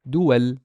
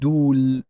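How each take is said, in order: First: The waw is a w consonant, two syllables. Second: The waw is a long u vowel, one syllable. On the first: The speaker calls it right. "I'd pronounce it as dual" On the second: The speaker calls it wrong. "I would pronounce it dul, dul, dul, because it's a long vowel"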